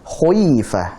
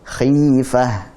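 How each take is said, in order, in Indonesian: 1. Suku kata pertama sangat tebal. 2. Suku kata pertama tebal sedang.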